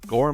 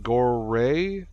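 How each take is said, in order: First: The word is said as one syllable. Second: The word is said with an added second syllable.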